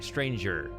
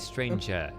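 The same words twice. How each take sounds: First: The final R sound is clearly pronounced. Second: The final R becomes a plain schwa vowel. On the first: "So I say er, right" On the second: "whereas you would say"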